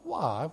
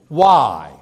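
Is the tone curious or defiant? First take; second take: curious; defiant. First: It sounds like a curious, sincere question. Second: It sounds like a defiant, challenging retort. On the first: The asker genuinely wants information. The speaker calls it right. "They're asking for information" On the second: The asker is resisting an order. The speaker calls it wrong. "You don't say why to your parent in that tone of voice"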